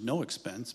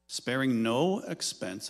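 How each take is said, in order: First: Quoting "no expense" with a deliberate hit on "no"; stress on no expense. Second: Sparing NO expense, with the word "no" pushed hard; mock-grand emphasis on "no expense"; stress on no expense. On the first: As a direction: dwell on "no" in "no expense" with a wry touch. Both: Shown as a demonstration. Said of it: "I will emphasize the words".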